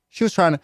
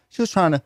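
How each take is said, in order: Both takes have the same delivery.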